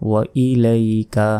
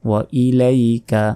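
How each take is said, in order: Both takes have the same delivery.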